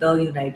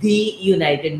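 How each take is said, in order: First: The word 'the' is said with a short 'uh'. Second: The word 'the' is said with a long 'ee'. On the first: The speaker calls it wrong. "not, not the United" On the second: The speaker calls it right. "notice my pronunciation. It's the United"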